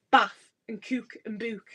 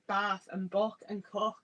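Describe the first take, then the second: First: Short flat A in "bath", long oo in "cook" and "book"; regional vowel demo. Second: Said in the usual way. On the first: Shown as a demonstration. Speaker contrasting family's vowels with own posh ones, regional "bath and cook and book". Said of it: "instead of". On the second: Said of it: "I still say".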